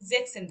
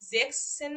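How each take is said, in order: First: The parts merge, dropping the extra s sound. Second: Sechs and zehn are said as separate parts. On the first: The speaker calls it right. "জেক্সেন দিচ্ছি" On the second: The speaker calls it wrong. "জেক্স সেন না দিয়ে"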